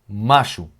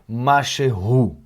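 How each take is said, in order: First: The middle sound is dropped, giving two syllables. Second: All three syllables are pronounced in full. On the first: "quando a gente fala rápido" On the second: "a gente não fala machehu"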